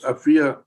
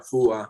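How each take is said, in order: First: The middle vowel sounds like 'ee'. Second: The middle vowel sounds like 'oo'. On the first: The speaker calls it right. "So it's Afia Adu" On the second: The speaker calls it wrong. "I keep saying A F U A, Afua"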